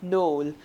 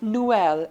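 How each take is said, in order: First: The two vowels merge into one sound. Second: The two vowels are said as separate sounds. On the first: The speaker calls it wrong. "and not Noel" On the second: The speaker calls it right. "So it will be like Noel"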